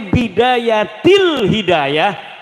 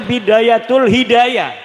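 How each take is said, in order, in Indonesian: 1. Kata pertama berakhir dengan bunyi 'il'. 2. Kata pertama berakhir dengan bunyi 'ul'. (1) "Harus sebah dibacanya Bidayatil Hidayah karena ana huruf jer" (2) "deke maca Bidayatul Hidayah"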